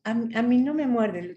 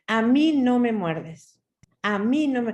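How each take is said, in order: First: Timid, weak. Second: Firm. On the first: Retold or imitated. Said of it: "era muy débil al principio". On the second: Shown as a demonstration. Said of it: "A ver, firme".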